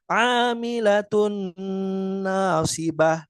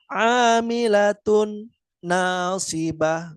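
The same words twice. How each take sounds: First: The n sound merges into the next word, nasalized. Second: The n sound is pronounced separately, not merged. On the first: The speaker calls it right. "leburkan menjadi satu. ... dengan tetap ada gunnah" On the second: The speaker calls it wrong. "tidak dipisah. ... Enggak seperti itu"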